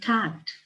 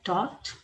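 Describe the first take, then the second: First: It is said with an American vowel. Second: It is said with a British vowel. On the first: "American में" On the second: "British English में अलग तरीके से लिखा हुआ है"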